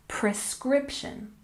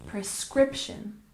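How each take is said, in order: Both takes have the same delivery.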